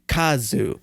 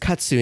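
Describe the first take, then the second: First: The middle consonant is a 'z' sound. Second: The middle consonant is a 'ts' sound. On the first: This is the Korean form of the word. "but in Korean it's ka, um, kazu" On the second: This is the Japanese form of the word. "that's Japanese katsu"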